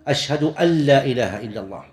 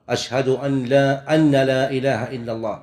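First: The nun in 'an' is short and light. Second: The nun in 'an' is doubled and held. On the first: The speaker calls it right. "صواب يقول أن أشهد أن" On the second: The speaker calls it wrong. "وهذا خطأ"

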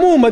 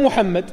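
First: The name is said without the throaty h sound. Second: The name is said with the throaty h sound. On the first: This is how foreigners who cannot pronounce the name say it. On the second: This is the name of the Prophet as properly pronounced.

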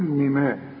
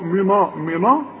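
First: The n sound is light and thin. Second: The n sound is heavy and emphatic. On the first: The speaker calls it right. "هتقول منا" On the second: The speaker calls it wrong. "النون دي مش عايزين نفخمها، ما نقولش"

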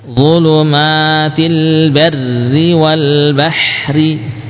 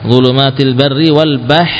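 First: The final r is light, with a vowel after it. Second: The final r is heavy, with the word stopped. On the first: "semuanya ro-nya apa? Kasroh, sehingga dibaca tipis"

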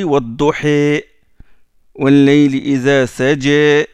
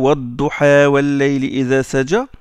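First: The final long vowels lean toward an e sound. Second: The final long vowels are said as open a. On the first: This is another reading tradition of the verse. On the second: This is one reading tradition of the verse.

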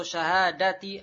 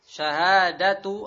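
First: The word ends with an i vowel. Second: The word ends with a u vowel. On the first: "ataupun dengan kasrah syahadati" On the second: "bisa dibaca syahadatu dengan dhammah"

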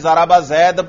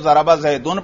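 First: The last word ends bare, with no -un ending. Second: The last word ends with an added -un sound. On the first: The word is left without its case ending. The speaker calls it wrong. "آپ نے ضرب زید پڑھا" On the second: The word carries its nominative case ending. The speaker calls it right. "آپ کو ضرب زیدن پڑھنا چاہیے تھا"

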